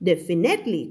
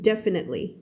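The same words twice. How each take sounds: First: The stress is on a later syllable. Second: The stress is on the first syllable. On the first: The speaker calls it wrong. "ไม่เอา" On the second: The speaker calls it right. "stress คำแรกตรงนี้นะจ๊ะ"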